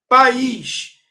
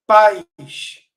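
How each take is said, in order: First: País loud, two syllables with stress on the "ís", pa-ÍS; stress shift demo. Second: Pais loud, one syllable like "pais", stress on "pa"; stress shift demo. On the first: Teacher naming the country word for students, País stressed on "ís". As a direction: stretch País into pa-ÍS. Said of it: "Se eu tirar o acento de país". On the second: Teacher showing students the word for parents, pais as one syllable. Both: Shown as a demonstration.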